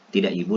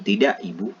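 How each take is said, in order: First: Both words run together as one phrase. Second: 'Ibu' is set off as a separate phrase. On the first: The noun itself is being negated. "intonasinya tidak ibu" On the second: The listener is being addressed politely. "Kalau yang kedua itu artinya ibu ini sebagai sapaan"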